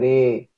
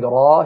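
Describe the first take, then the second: First: The vowel leans toward an 'e' sound. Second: The vowel is an open 'a' sound. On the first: "he say Re" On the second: "instead of saying Ra"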